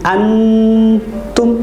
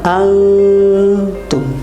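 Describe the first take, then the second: First: The n is pronounced fully and clearly. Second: The n is hidden in a nasal sound. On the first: The speaker calls it wrong. "Tidak boleh antum" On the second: The speaker calls it right.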